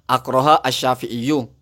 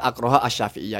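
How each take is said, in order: First: The last word ends in a 'u' sound. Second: The last word ends in an 'ah' sound. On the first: This is how the text is written. "Ada juga akroha asyafi'iyu" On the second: This is how it was misread. "dibaca akroha asyafi'iyah"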